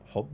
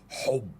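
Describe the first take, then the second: First: The word is pronounced in a plain, normal way. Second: The word is pronounced in an exaggerated, harsh way. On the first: This is how people actually say it. The speaker calls it right. "بيتنطق حُب وهدوء عادي" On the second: It mocks the language as sounding strange. The speaker calls it wrong. "ده حُب وهدوء بيتنطقوا كده؟"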